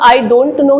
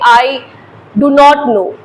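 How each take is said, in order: First: Do not is contracted into one syllable, don't. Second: Do not is said as two full words. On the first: It sounds casual and everyday. The speaker calls it right. "सब I डोंट know ही बोलते हैं" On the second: It sounds formal. The speaker calls it wrong. "कोई भी इंसान ऐसे नहीं बोलता है"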